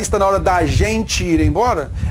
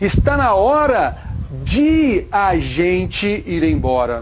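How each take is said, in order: First: The words de and a merge into da. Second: The words de and a are said separately. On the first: The speaker calls it wrong. "Ela falou da gente" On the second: The speaker calls it right. "o correto da pronúncia é"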